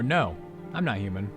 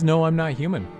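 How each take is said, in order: First: There is a clear pause after no. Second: The words run together without a pause after no.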